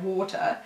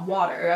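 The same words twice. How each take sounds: First: The t is pronounced clearly and crisply. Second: The t sounds soft, almost like a d. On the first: "there's a T, there's a W, you can hear it" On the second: "I've pronounced it not water"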